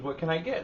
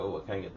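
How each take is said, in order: First: High, chirpy retold question; pleasant server. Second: Said in the usual way. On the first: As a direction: imitate a perky deli clerk. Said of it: "she's all pleasant and shit". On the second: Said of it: "And I go".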